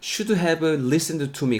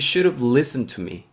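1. 모든 단어를 완전하고 따로따로 발음해요. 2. 단어들을 줄여서 이어 붙여 발음해요. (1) "굳이 이렇게 다 풀어서 발음하실 필요 없이" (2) "이렇게 발음해 주시면 돼요"

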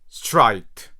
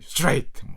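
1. 단어를 편하고 보통 속도로 말합니다. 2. 단어를 최대한 빨리 내뱉습니다. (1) "그냥 ... 요 정도 읽으시면 됩니다" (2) "너무 이제 마음이 급해가지고 야 이거를 최대한 빨리 읽어야 되니까"

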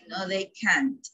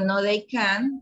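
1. El sonido final de la T se pronuncia claramente. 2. El sonido final de la T se omite y no se oye. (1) "Al final es la T que debe de escucharse" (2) "si yo digo no, they can, parece que dijera can"

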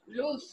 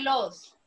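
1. La vocal suena como 'oo'. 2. La vocal suena como 'oh'. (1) "Esto en presente se pronuncia luz" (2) "esto en presente no se dice los"

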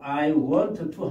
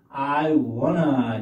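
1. 두 t 소리를 따로 발음해요. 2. 'wanna'로 줄어들어서 t가 없어요. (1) "I want to 하지 마시고" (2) "I wanna 이렇게 하시면 됩니다"

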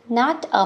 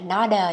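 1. Hai từ được đọc tách rời. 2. Hai từ được nối liền với nhau.

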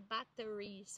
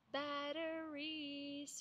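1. O t é um som forte e completo. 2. O t é um toque suave e rápido. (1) "Cuidado com essa pronúncia. Não pode ser batteries" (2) "Ó, o tezinho"

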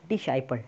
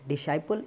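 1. बीच का व्यंजन s ध्वनि है। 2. बीच का व्यंजन s ध्वनि है।

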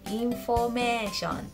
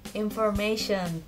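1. Diucapkan dengan bunyi katakana Jepang. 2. Diucapkan dengan bunyi bahasa Inggris. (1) "Kalau dijadikan katakana, cara bacanya menjadi information" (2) "bahasa Inggrisnya information"

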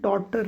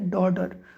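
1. मधला व्यंजन स्पष्ट T सारखा वाजतो. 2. मधला व्यंजन मऊ D सारखा वाजतो. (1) "पण आपण डॉटर म्हणतो" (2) "डॉटर काही वेळा डॉडर म्हटलं जातं"

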